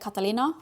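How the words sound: The name is said with a Norwegian pronunciation. "We would say Catalina, which probably sounds more Spanish"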